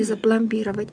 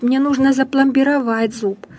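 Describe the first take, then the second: First: "запломбировать" wrongly stressed on БИ, softer; dropped, mistaken middle stress in "запломбировать". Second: "запломбировать" stressed on final ВАТЬ; correct stress. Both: Shown as a demonstration. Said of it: "а не".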